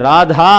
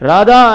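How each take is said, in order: First: The middle consonant is said with a breathy aspiration. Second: The middle consonant is said plain, without aspiration. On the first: The speaker calls it right. "రాధా అని పలుకు రాదు" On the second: The speaker calls it wrong. "రాధా అంటుంటాడు. ఎక్కడ ఒత్తులు లేవు"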